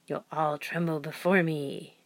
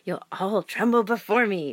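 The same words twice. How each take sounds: First: It is said in an unsure, unconvincing way. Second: It is said in a more forceful, threatening way. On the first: The speaker calls it wrong. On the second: The speaker calls it right.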